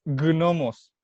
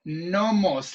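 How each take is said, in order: First: "gnomos" drawn out slowly with a hard G; hard G pronunciation. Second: "Gnomos" pronounced "nomos"; silent G. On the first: Co-host correcting Germán in turn, slow hard G. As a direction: slowly sound the g before the n in "gnomos". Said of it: "No, Germán". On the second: Host explaining that the G is mute, silent G. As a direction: leave the G of "Gnomos" mute, beginning on n. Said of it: "la G es muda". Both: Shown as a demonstration.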